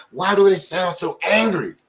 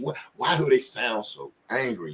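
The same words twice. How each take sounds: First: Higher and louder, asking in outrage; raised outcry. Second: Said in the usual way. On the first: Real, not acted. Repeating the question about police anger, now higher and louder. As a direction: let the question burst out, pitched up and loud. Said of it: "repeats the question". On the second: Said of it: "first asking of the question".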